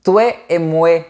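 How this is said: The 'wa' sound has Québécois quality. "le son « wa » change aussi"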